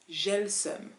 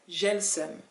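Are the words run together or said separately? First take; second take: run together; run together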